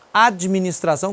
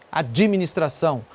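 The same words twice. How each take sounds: First: Said in the usual way. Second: "Administração" with an added ee after the d; extra I inserted. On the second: Shown as a demonstration. Teacher mimicking how Brazilians add a vowel, extra I in "Administração". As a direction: say "Administração" as ad-jee-ministração. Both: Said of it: "o cara bota um I".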